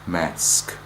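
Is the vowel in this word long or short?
short. The vowel is short, as in rat. "a short A in the American"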